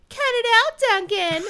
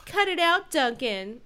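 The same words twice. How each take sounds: First: High, loud whiny taunt; mock him in a nasal sing-song; whiny sing-song mimic. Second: Said in the usual way. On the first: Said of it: "mimicked Duncan in a whiny sing-song voice". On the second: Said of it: "said [name]".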